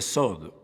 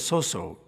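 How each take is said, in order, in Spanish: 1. La consonante del medio tiene un sonido d. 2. La consonante del medio es un sonido s simple. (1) "se pronuncia sod, con una D al final" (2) "no se pronuncia soso"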